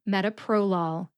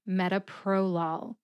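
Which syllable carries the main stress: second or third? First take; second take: third; third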